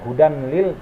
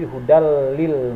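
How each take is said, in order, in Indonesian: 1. Bunyi n tetap dibaca sebelum l. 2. Bunyi n melebur ke dalam l. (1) "Jadi bukan hudan lil" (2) "tapi hudal lil muttaqin"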